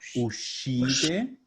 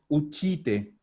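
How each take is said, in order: First: The middle consonant is pronounced 'sh'. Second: The middle consonant is pronounced 'ch'. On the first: The speaker calls it right. "es ushite" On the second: The speaker calls it wrong. "No es uchite"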